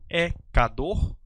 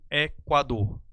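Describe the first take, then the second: First: The u after the k sound is silent. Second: The u after the k sound is pronounced. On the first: The speaker calls it wrong. "Eu falo ecador" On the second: The speaker calls it right. "tiver a sua vogal U pronunciada"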